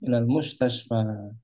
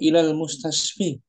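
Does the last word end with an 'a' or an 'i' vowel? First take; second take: a; i. First: The last word ends with an 'a' vowel. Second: The last word ends with an 'i' vowel. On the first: The speaker calls it right. "Kan ilal mustashfa" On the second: The speaker calls it wrong. "Boleh nggak dibaca ilal mustashfi?"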